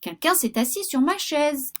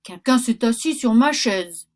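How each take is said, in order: First: It is said in a medium voice. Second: It is said in a big, deep voice.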